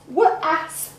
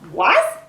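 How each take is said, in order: First: The word is broken into separate sounds. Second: The word is said whole in one go.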